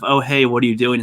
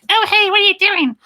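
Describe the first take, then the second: First: It is said in a plain, ordinary pitch. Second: It is said in a raised, high pitch. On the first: "some people sound kind of bland" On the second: "make them high pitch"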